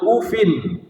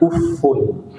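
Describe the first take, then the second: First: The word ends in a plain i vowel. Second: The word ends in a u vowel. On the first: "dengan kasrah tanpa tanwin" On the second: "membacanya dengan dhammah"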